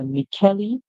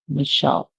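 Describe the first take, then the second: First: The middle sound is k, with a final vowel. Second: The middle sound is sh, no final vowel. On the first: "the E at the end being pronounced too" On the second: "the C H makes a sound like sh... the end is silent"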